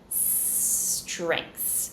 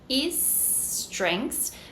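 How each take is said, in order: First: The word begins directly with the s. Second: A short vowel is added before the s. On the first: The speaker calls it right. "but strengths" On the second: The speaker calls it wrong. "you're not saying is strengths"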